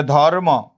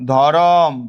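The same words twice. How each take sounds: First: ধর্ম as "dhor-mo", r joined to m; no vowel between r and m in ধর্ম; cluster in ধর্ম. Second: ধরম as "dho-rom", ending on m; inserted vowel in ধরম. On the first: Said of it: "এরকম বলি যে". ("ধর্ম"-তে র আর ম যুক্ত উচ্চারণ) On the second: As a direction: open an o between r and m in ধরম. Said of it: "ধর্ম থেকে". ("ধরম"-এ র-এর পরে টানা অ) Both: Shown as a demonstration.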